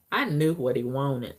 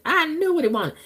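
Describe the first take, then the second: First: Said in the usual way. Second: "I knew what he wanted" jumped up high and sung out; knowing high repeat. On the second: Real, not acted. Telling y'all about Charles, the knowing high repeat.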